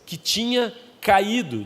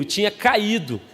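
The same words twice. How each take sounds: First: Slow preacher reading; preaching. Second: Emphatic preacher call; preaching. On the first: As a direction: read it out slowly. First reading of phrase. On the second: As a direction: proclaim it. Preacher repeats with congregation. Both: Acted.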